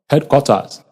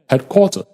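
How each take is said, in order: First: The unstressed vowel is said as a full vowel. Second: The unstressed vowel is reduced to uh. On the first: The speaker calls it wrong. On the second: The speaker calls it right.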